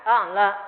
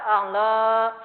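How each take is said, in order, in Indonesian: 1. Vokal panjang dipotong terlalu singkat. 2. Vokal panjang ditarik terlalu lama. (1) "Yang kependekan" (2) "yang kepanjangan seperti apa?"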